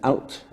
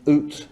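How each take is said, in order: First: The vowel is an ow sound. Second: The vowel is an oo sound. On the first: This is how most people said it by the late twentieth century. "most people actually saying something like this" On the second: This is the traditional dialect pronunciation. "Those are the traditional dialect pronunciations of those words"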